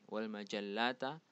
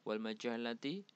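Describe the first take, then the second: First: The final word ends with an 'a' vowel. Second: The final word ends with an 'i' vowel. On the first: The speaker calls it right. "seharusnya harokat fathah karena sebagai maf'ul bih" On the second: The speaker calls it wrong. "Ini sebenarnya salah ya harokatnya"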